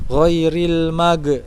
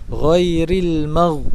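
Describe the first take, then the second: First: The final consonant bounces with an echo. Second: The final consonant stays still without an echo. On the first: The speaker calls it wrong. "Ghin ketika sukun jangan dipantulkan, jangan ghairil mag" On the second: The speaker calls it right. "tapi ghairil mag"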